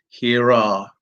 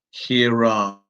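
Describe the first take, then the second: First: An R sound links the two words. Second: An R sound links the two words.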